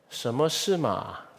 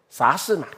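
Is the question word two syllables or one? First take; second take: two; one. First: The question word has two full syllables. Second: The question word is merged into one syllable. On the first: This is standard, proper Mandarin. "很正统的普通话" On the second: This is casual or regional speech. "啥跟什么啊？这什么在一起？"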